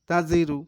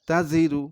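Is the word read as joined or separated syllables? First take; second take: joined; joined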